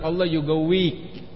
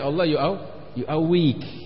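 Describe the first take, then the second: First: The middle consonant is a deep q sound. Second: The middle consonant is a glottal stop. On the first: This is the original standard form of the blessing. "mereka aslinya itu bilang" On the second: This is how Egyptians say the blessing. "nyebutnya dengan hamzah"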